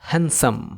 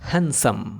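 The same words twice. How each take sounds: No difference in how they are said.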